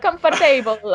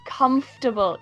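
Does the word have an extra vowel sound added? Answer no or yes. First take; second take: yes; no. First: An extra vowel sound is added inside the word. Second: No extra vowel sound is added inside the word. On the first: The speaker calls it wrong. "that vowel" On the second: The speaker calls it right. "no, no, no, it's comfortable"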